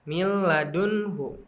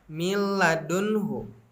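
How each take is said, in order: The two takes are said the same way.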